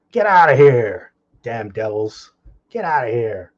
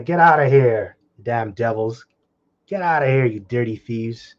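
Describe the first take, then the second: First: Shout. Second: Mock shout. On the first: Retold or imitated. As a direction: bellow it like chasing off thieves. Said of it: "that's how you should be treated". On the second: Preacher voicing villagers chasing off thieves, mock shout. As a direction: yell them out of town. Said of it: "They cried after them".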